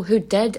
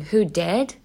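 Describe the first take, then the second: First: Put-on "did" in a Donegal accent, meaning the past of do; correcting to "did". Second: "did" said as "dead", rising in question; misheard as "dead". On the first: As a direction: stress the correction on who did, rising at the end. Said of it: "As in somebody did something". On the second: Retold or imitated. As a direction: imitate a puzzled listener hearing did as "dead". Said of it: "As in somebody died".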